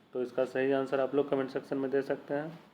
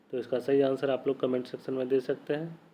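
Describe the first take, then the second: The two takes are said the same way.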